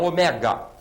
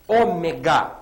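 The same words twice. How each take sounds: First: The stress is on the second-to-last syllable. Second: The stress is on the third-to-last syllable. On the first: The speaker calls it wrong. "e não ômega" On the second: The speaker calls it right. "proparoxítona"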